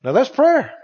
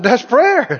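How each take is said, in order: First: Said in the usual way. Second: PRAYER driven home more forcefully; emphatic repeat. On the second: Real, not acted. Preacher repeats his point to the congregation, emphatic PRAYER. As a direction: repeat it with firm weight on PRAYER. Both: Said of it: "I said".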